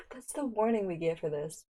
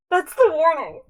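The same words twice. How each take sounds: First: Said in the usual way. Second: High, loud disbelief; incredulous outburst. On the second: Real, not acted. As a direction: burst out in amused disbelief. Incredulous repeat of the warning.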